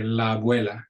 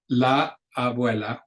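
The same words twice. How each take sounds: First: La abuela with the two a sounds run together; smoothly linked la abuela. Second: La abuela with the a of la held apart; choppy la abuela; wrong way, separated. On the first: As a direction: glide la abuela as one word. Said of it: "we say". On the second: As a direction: say la abuela with a break. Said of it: "pause a lot and say". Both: Shown as a demonstration.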